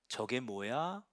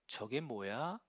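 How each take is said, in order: Both takes have the same delivery.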